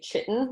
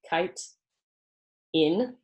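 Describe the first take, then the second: First: The word begins with a ch sound. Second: The word begins with a k sound. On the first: The speaker calls it wrong. "A lot of people say chitin, which is not correct" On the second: The speaker calls it right. "pronounced as if it's spelled kite in"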